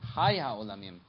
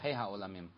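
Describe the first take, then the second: First: The first word ends with an 'ai' vowel. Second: The first word ends with an 'ay' vowel. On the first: The speaker calls it right. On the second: The speaker calls it wrong. "We don't say hey ha-olamim"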